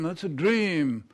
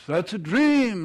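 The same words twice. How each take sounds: First: Said in the usual way. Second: "That's a dream." said louder with dream punched; stress on dream. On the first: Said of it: "echoed softly". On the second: Acted. Edith approving Kate's dream, louder and delighted. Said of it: "approving repeat".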